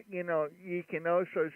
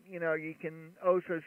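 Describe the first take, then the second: No difference in how they are said.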